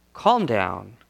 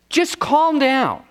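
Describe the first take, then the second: First: Low, settled, unhurried command; calm reassurance. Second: High, drawn-out mock command; incredulous quote. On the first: Retold or imitated. Preacher voicing Jesus who has power over it, calm and low. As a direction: say it low as one in control. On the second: Preacher questioning how anyone can say that, incredulous and high. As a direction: stretch it slowly as an exasperated order.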